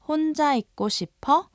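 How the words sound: The voice rises at the end as a question. The speaker asks if someone wants to be alone. "ask a question by raising the intonation"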